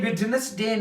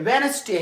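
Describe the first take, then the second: First: The d sound is clearly pronounced. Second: The d sound is left out. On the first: The speaker calls it wrong. "ये वेडनेसडे नहीं है" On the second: The speaker calls it right. "फिर ये वेनसडे है"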